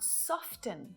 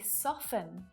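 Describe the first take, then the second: First: The T in the middle is pronounced. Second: The T in the middle is silent. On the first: The speaker calls it wrong. "not soften" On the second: The speaker calls it right. "the sound disappears. We say soften"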